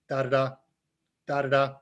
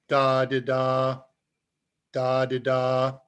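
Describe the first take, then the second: First: The syllables are said quickly with short gaps. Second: The syllables are said slowly with long gaps. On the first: "at a much faster clip" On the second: "you can form K at five words a minute"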